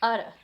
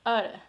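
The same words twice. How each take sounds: First: The vowel is a schwa with a tapped T. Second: The same.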